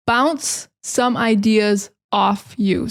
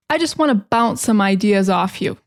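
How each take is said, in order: First: "Bounce some ideas off you" slow, in separate chunks; slow breakdown. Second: Said in the usual way. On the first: Shown as a demonstration. Teacher repeats a common phrase for learners, slow breakdown. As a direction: pause after "Bounce" and after "ideas".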